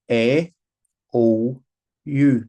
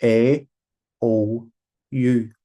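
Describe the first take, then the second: First: A O U said loud, mouth wide open; vowels with open mouth. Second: A O U again, loud and round-mouthed; repeated open vowels. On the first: Teacher shows pupils the mouth shape, loud open vowels. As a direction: shape each vowel A, O, U big and round. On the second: Teacher repeats vowels for pupils to copy, loud and round. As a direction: mouth each vowel A, O, U clearly. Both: Shown as a demonstration. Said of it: "Tá má bhéal mar sin".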